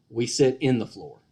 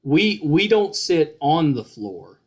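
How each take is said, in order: First: "in" set out as the local word; stress on IN. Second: Slow, with "on" set out as the wrong word; slow teaching contrast on "on"; stress on ON. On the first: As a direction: teach "in" in place of "on". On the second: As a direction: carefully mark "on" as the word to avoid. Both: Shown as a demonstration. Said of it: "I'll give you a trick to".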